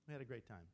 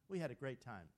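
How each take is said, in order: First: It is said in a flat, unenthusiastic way. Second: It is said with lively, enthusiastic energy. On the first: The time was not really enjoyable. The speaker calls it wrong. "Doesn't sound great when you say it like that" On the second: The time was really enjoyable. The speaker calls it right. "And we often say it that way, don't we?"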